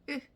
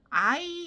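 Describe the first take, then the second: First: It is said as a short, weak 'eu' sound. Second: It is said as a full, stressed 'ai' sound. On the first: The speaker calls it right. "I 소리를 아, 으" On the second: The speaker calls it wrong. "I 이렇게 하면 이미 늦어요"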